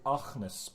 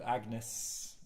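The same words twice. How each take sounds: First: The g is a rough, throaty sound. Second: The g is a plain, hard g sound.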